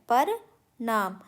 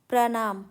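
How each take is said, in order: First: It begins with 'par', split like two words. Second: It begins with the cluster 'pra' as one word. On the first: The speaker calls it wrong. "पर नाम नहीं होता है" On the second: The speaker calls it right. "प्रणाम होता है"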